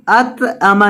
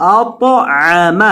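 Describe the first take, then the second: First: اطعم said the wrong way; wrong reading. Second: اطعم said the right way; correct reading. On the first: Teacher showing a wrong reading of اطعم. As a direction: say اطعم carelessly. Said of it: "اطعم نہیں". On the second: Teacher showing the correct reading of اطعم. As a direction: say اطعم carefully. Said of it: "نہیں". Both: Shown as a demonstration.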